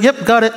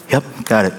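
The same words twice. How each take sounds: First: "Yep" high and bright with a rising tune; eager yes. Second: Said in the usual way. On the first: Shown as a demonstration. Employee answering the boss, cheerful eager yes. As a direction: chirp "Yep, got it" like you're glad to help. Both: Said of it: "just be like".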